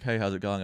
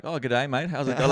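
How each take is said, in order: First: Said in the usual way. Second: Louder, higher, playful Australian greeting; hammed-up Aussie slang. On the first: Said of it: "rather than being like". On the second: Shown as a demonstration. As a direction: ham up a matey Aussie hello. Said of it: "throwing a bit of Australian slang".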